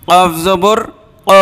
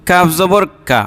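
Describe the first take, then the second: First: ক with a push from the throat; pushed qaf. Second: কা said normally, no throat push; a relaxed কা without push; plain kaf. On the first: Teacher showing pushed throat ক. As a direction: give ক a little throat push. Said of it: "একটু ধাক্কা দিয়ে গলার". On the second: Teacher showing unpushed কা to contrast. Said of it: "স্বাভাবিকভাবে কোনো ধাক্কা টাক্কা নাই". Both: Shown as a demonstration.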